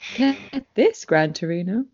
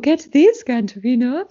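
First: It is said in a plain reading voice. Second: It is said in a put-on fancy lady voice.

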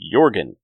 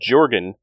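First: The name begins with a Y sound. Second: The name begins with a J sound. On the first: The speaker calls it right. "who is actually Jorgen" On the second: The speaker calls it wrong. "we have a character named Jorgen"

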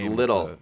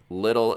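First: The middle consonant sounds like a soft D. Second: The middle consonant sounds like a soft D.

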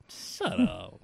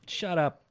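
First: It is said in a nicer, gentle tone. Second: It is said in a harsh, rude tone.

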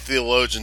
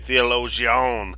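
First: The word is pronounced in the ordinary way. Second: The word is pronounced in an odd, imitated way. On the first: "He wouldn't say theologian" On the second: "he would say theologian"

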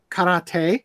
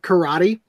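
First: It is said with a non-American pronunciation. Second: It is said with an American pronunciation. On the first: "Instead of karate" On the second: "I'm not gonna give up the American pronunciation of"

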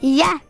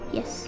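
First: It is said loudly. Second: It is said quietly.

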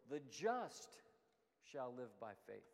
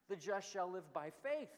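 First: The stress is on the word just. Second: The stress is on the word faith.

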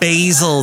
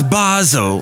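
First: The word is said in an American accent. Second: The word is said in an English accent.

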